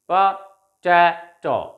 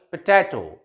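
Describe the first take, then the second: First: Potato stretched slowly, syllable by syllable; slow, clear classroom model of potato; slow syllable drill. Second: Said in the usual way. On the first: Shown as a demonstration. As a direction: draw out potato for students to repeat. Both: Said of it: "recite them after me".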